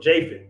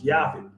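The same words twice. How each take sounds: First: The name begins with a J sound. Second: The name begins without a J sound. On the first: The speaker calls it wrong. "we pronounce the J and say Japhet" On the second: The speaker calls it right. "but it's Japhet"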